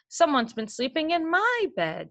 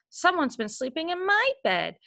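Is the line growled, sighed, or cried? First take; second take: sighed; cried. First: It is sighed in Mama Bear's voice. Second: It is cried out in baby bear's voice.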